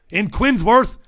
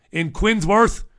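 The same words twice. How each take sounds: The two takes are said the same way.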